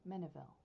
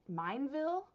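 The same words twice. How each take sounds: First: "Mineville" as MIN-uh-vil, low and falling; softer, lower "Mineville", said MIN-uh-vil; settling on a pronunciation. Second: "Mineville" as MINE-vil, high and loud; questioning "Mineville", MINE plus vil, rising; trying a pronunciation. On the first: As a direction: settle on "Mineville" with short i, three syllables. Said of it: "I think it's Mineville". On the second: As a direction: ask "Mineville" with a long i, like mine. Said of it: "how to pronounce this". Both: Shown as a demonstration.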